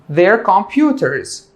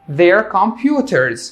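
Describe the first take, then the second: The two takes are said the same way.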